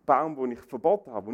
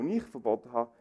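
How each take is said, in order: First: Said in the usual way. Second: "ich" picked out above "verboten"; stress on ICH. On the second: Shown as a demonstration. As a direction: punch the word "ich". („ich“ deutlich betont) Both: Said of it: "Die Betonung liegt auf der Ich-Botschaft".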